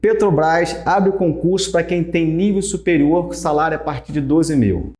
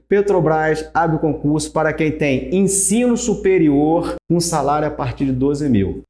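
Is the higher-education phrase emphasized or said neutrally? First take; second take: neutrally; emphasized. First: It is read evenly without special emphasis. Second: Ensino superior is said with strong emphasis.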